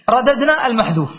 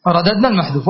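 First: رددنا stressed at ordinary pitch; emphasis on رددنا. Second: رددنا المحذوف repeated much lower, as a closing point. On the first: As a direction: state رددنا المحذوف plainly. (رددنا المحذوف بنبرة عادية) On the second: (تكرار رددنا المحذوف بصوت أخفض) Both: Shown as a demonstration.

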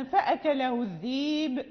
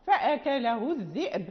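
First: الذيب said with a long ya, no hamza; Warsh reading. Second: الذئب said with a clear hamza glottal stop; Qalun reading. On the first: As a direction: say الذيب as dheeb, the hamza turned to ya. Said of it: "يعني نقرأ لورش". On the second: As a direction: say الذئب as dhi'b, stopping on the hamza. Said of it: "لقالون مثل باقي القراء". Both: Shown as a demonstration.

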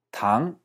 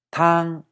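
First: Tang rising upward. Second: Tang held high and level. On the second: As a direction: hold Tang flat on a high note. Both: Shown as a demonstration. Teacher contrasting tang for soup and sugar. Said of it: "si uno pide tang".

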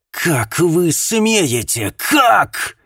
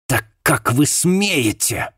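First: High, slow scream, much louder; voice breaking into a scream. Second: Slow, spat-out outrage, higher. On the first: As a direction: let the voice crack into a scream. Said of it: "Голос миссис Уилкинс сорвался на крик". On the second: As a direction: spit the words out in outrage. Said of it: "выплюнула она". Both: Acted.

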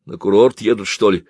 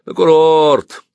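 First: Said in the usual way. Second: Loud, high, drawn-out jeer; mocking heckle from the crowd. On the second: A narrator's reading. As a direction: echo it scornfully, stretching the word. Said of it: "послышалось насмешливое".

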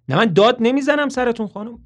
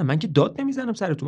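First: Loud, high shouted denial; Toby shouting down the phone at the mother. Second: Said in the usual way. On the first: Acted. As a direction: yell that you are not yelling. Shouting while denying shouting.

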